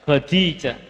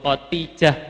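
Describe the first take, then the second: First: The middle consonant is a d sound. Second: The middle consonant is a t sound. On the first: The speaker calls it right. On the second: The speaker calls it wrong.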